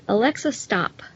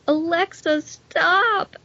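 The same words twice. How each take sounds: First: It is said in a calm, plain tone. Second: It is said in a desperate, begging tone.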